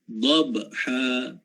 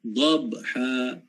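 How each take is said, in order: Both takes have the same delivery.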